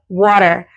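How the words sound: It is said in an American accent. "Americans say"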